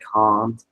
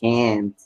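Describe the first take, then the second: First: It is said with a British-style vowel. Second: It is said with an American-style vowel. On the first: The speaker calls it right. "I'm so used to saying can't" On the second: The speaker calls it wrong. "I get annoyed when uh, when I hear the word can't"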